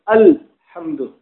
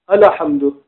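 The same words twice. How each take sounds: First: No vowel is sounded right after the l. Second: A vowel is sounded right after the l. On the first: The speaker calls it right. "It's alhamdu" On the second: The speaker calls it wrong. "So it's not"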